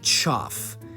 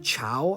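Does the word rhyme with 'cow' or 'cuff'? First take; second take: cuff; cow. First: The word rhymes with 'cuff'. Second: The word rhymes with 'cow'. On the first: This is the speaker's own habit. "I say chuff" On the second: Many other people say it this way. "a lot of other people say chow"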